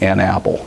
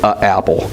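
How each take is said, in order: First: An n sound links smoothly into 'apple'. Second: A glottal stop separates the article from 'apple'. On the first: The speaker calls it right. "the an allows us to keep the breath going" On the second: The speaker calls it wrong. "we don't like to make the stop"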